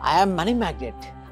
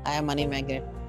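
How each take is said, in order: First: It is said loudly with high energy. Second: It is said flatly with low energy. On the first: The affirmation becomes effective. The speaker calls it right. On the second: The affirmation brings no results. The speaker calls it wrong.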